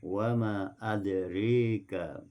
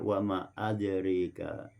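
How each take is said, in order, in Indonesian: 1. Vokal setelah r condong ke e. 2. Vokal setelah r condong ke e.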